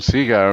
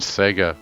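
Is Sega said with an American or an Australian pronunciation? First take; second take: Australian; American. First: It is said with an Australian pronunciation. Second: It is said with an American pronunciation. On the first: "people going Sega" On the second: "crazy Americans again. They're saying Sega"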